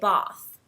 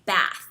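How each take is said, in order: First: It has a long, broad British A vowel. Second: It has a short, flat American A vowel.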